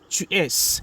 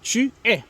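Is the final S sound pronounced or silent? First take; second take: pronounced; silent. First: The final S sound is pronounced. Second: The final S sound is silent. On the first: The speaker calls it wrong. "It's not tu es" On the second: The speaker calls it right. "we don't pronounce usually the last uh, letter S"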